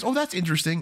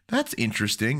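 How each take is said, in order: First: It sounds positive and pleased. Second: It sounds negative and doubtful.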